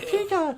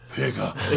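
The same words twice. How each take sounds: First: It is said in a high voice. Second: It is said in a low, deep voice.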